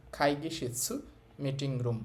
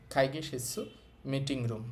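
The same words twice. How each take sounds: The two takes are said the same way.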